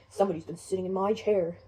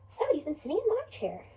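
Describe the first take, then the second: First: Deep, loud big bear voice; Papa Bear. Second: Higher, lilting mother bear voice; Mama Bear. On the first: Father bear seeing his chair was used, deep and loud. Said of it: "Papa Bear comes over and says". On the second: Mother bear seeing her chair was used, high and put-out. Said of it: "Mama Bear says". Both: Acted.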